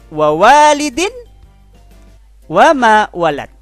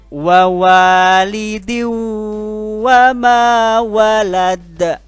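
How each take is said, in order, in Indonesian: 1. Bunyi n diucapkan dengan jelas dan terpisah. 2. Bunyi n menyatu dengan dengung sengau yang ditahan. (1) "Aslinya berbunyi" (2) "masuk dengan dengung"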